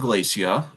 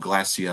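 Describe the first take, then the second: First: The word is said in a non-British way. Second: The word is said in a British way.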